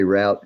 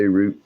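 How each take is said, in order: First: Route pronounced ROWT, rhyming with out; own pronunciation, "rowt". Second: Route pronounced ROOT, rhyming with boot; other pronunciation, "root". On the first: Telling a listener how they say it, route as ROWT. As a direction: say route with an OW vowel. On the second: Telling a listener how others say it, route as ROOT. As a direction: say route with an OO vowel. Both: Shown as a demonstration. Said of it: "I say route, you say route".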